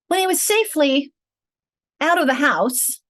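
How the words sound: The phrase is broken up at an awkward point. The speaker calls it wrong. "that does not natural, is it?"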